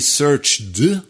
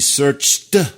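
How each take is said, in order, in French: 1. La fin se prononce comme une syllabe en plus. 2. La fin se prononce comme un simple t. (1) "on n'a pas dit searched" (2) "on a dit searched"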